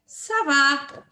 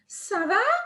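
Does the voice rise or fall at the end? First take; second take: fall; rise. First: The voice falls at the end, as a statement. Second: The voice rises at the end, as a question.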